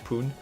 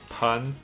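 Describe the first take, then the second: First: The vowel is a long 'oo' sound. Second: The vowel is a short 'uh' sound. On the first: The speaker calls it wrong. "for some reason I kept saying poon" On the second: The speaker calls it right. "Now I know that it's pronounced like sun"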